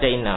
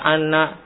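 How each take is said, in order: First: The word begins with an 'i' vowel. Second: The word begins with an 'a' vowel. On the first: The speaker calls it right. "Maka wajib baca inna" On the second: The speaker calls it wrong. "Maka salah apabila di awal jumlah baca anna, salah"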